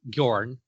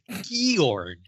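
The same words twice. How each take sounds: First: The name is said as one syllable. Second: The name is said as two syllables. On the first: The speaker calls it right. "one syllable, like fjord" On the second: The speaker calls it wrong. "the graphic audio says"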